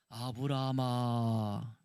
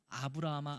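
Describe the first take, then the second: First: The name is called calmly, without hurry. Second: The name is called urgently, with hurry. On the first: It is an ordinary call. The speaker calls it wrong. "이렇게 말씀하시는 게 아니라" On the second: The caller urgently wants to stop him. The speaker calls it right. "굉장히 다급한 목소리예요"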